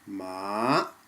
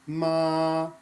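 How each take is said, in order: First: The pitch starts low and rises high. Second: The pitch stays flat and level throughout. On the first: It means hemp. "So we start low and we go high" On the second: It means mother. "The first tone is a flat tone. Just hold the tone out"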